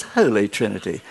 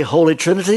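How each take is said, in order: First: Put-on "Holy Trinity" in a lower, softer, plummy posh English accent; a light send-up of posh English "Holy Trinity"; mock posh English accent. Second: Said in the usual way. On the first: Preacher mocking Etonian church staff, light posh English accent. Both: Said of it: "they're all Etonians with their posh accents".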